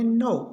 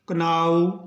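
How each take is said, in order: First: The word starts with an n sound. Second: The word starts with a k sound. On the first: The speaker calls it right. "के का नहीं होगा" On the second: The speaker calls it wrong. "ये सब गलत है"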